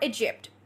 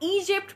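First: The first vowel is kept short. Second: The first vowel is drawn out long.

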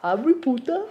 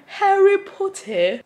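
First: It is said with an Indian accent. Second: It is said with a British accent. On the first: "Hvad med indisk?" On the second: "Så siger vi britisk accent"

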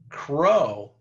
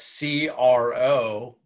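First: It is said as a single word. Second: It is said as three separate letters. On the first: The speaker calls it wrong. "No, you don't say crow" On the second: The speaker calls it right. "And that's C-R-O"

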